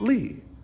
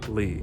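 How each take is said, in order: First: The pitch drops quickly from high to low. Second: The pitch stays very low, deep and short. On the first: "You start from a, a high voice and you drop to a low really quick" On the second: "Keep your voice super low for third tone"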